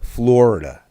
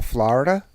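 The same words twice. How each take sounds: First: Florida with a round OR, FLOR-ida; children's pronunciation. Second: Florida with an open AH, FLAH-rida; Jersey pronunciation. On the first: Retold or imitated. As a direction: say Florida as FLORE-ih-da. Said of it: "You know what they call Florida?". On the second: Shown as a demonstration. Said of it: "fucking New Jersey accent".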